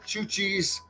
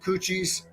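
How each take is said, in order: First: The name begins with a ch sound. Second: The name begins with a k sound. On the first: The speaker calls it right. "the second time you got it right" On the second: The speaker calls it wrong. "The first time"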